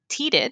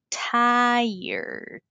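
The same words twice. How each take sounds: First: The word is read with Spanish letter sounds. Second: The word is said with English sounds. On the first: The speaker calls it wrong. "si la lees en español" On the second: The speaker calls it right. "pero la pronunciación es tired"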